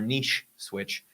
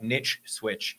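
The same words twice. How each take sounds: First: Niche does not rhyme with switch. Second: Niche rhymes with switch.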